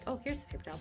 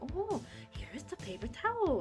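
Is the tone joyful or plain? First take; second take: plain; joyful. First: It is said in a plain, matter-of-fact tone. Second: It is said with joy and surprise. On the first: Simply handing over the paper towel. "usually you just say" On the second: Pleasantly surprised to find the paper towel. "putting like joy and surprise into it"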